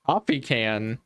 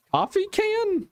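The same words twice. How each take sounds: First: Low puzzled echo. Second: High-pitched, incredulous COFFEE CAN; incredulous echo. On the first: Puzzled echo of odd phrase. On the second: Host questioning the coffee can remark, high and incredulous. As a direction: repeat "Coffee can" much higher, in disbelief. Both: Real, not acted.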